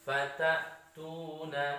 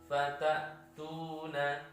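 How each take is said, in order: No difference in how they are said.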